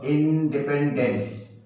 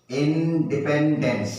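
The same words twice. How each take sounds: First: Slow, careful model word; slowly again. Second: Said slowly and clearly. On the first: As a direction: stretch it for the class. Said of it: "फिर बोलो". (धीरे-धीरे, साफ़-साफ़) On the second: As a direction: drag it out for the kids. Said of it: "धीरे धीरे बोलो". (धीरे-धीरे साफ़ बोलना) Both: Shown as a demonstration.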